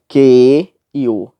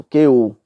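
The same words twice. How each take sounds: First: "que e o" slow and loud, each vowel apart; vogais separadas. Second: "que o" run into one quick syllable; vogais juntas. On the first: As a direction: stretch "que", then a separate "o". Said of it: "nós não lemos". ("que e o" separado, devagar e forte) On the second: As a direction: join "que o" with no break. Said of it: "é junto". ("que o" junto, numa sílaba só) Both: Shown as a demonstration.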